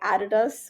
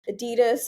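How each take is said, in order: First: The name gets its original pronunciation. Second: The name gets its common everyday pronunciation.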